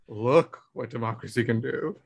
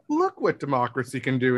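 First: It sounds dismayed and disapproving. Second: It sounds admiring and enthusiastic. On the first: Democracy's results are something to lament. The speaker calls it wrong. "instead of" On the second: Democracy's achievements are something to celebrate. The speaker calls it right. "We just need to get it back to"

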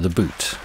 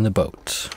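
First: The word has a Canadian-style 'boot' vowel. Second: The word has a plain standard vowel.

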